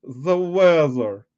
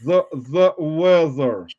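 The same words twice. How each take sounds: First: Slow, drawn-out seductive voice; sexy voice. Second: Slow, drawn-out sultry tease. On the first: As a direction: purr the words out slowly, hamming it up. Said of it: "You mean sexy voice?". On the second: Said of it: "Tell us the weather in the most that low, sultry voice". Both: Pretend.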